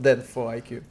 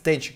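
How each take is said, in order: First: The name is said as Den-four-IQ. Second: The name is said as Denchik. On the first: The speaker calls it wrong. "So it's not Den4IQ" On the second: The speaker calls it right. "his name means Denchik"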